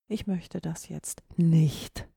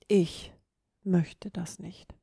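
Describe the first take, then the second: First: The stress is on the word nicht. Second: The stress is on the word ich. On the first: A firm refusal, under no circumstances. "Verneinung, auf gar keinen Fall" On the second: It is about me, not about others. "Geht ganz klar auf dich selbst ein und nicht gegebenenfalls auf andere"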